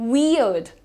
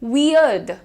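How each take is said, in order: No difference in how they are said.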